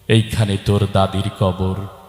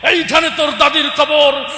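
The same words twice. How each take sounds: First: It is recited in a gentle poetic manner. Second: It is recited like a fiery political speech.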